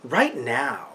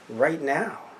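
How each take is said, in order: First: It is said in a dramatic put-on announcer voice. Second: It is said in the speaker's ordinary voice. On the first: The speaker calls it right. "If you remember the bumpers back in the day" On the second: The speaker calls it wrong. "I didn't do the voice right"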